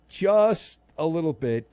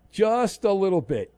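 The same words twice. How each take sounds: First: Slower, stretched repeat; slow drawn-out repeat for comic effect. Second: Said in the usual way. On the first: Shown as a demonstration. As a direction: savor it, drag the words out.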